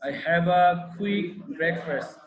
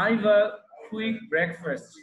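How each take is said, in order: First: 'I have' is said as two full words. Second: 'I have' is shortened to one syllable, I've.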